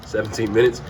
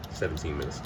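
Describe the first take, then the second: First: Said in the usual way. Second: Low, soft aside; quiet self-correction. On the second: Real, not acted. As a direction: correct yourself quietly, under the voice. Corrects the cooking time to himself.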